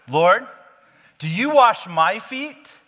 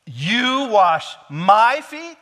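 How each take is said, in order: First: High, slow, loud indignant protest; hammed-up outraged disbelief. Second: "my" drawn out high and loud in "You wash my feet?"; slow and loud, hitting "my" hard in "You wash my feet?"; stress on my. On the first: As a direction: Peter balking at his master washing his feet, raised and indignant. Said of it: "he's indignant". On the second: Retold or imitated. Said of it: "the emphasis is".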